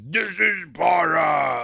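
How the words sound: It is said in a deep voice. This is how the movie portrays the hero. "their voice turns really deep"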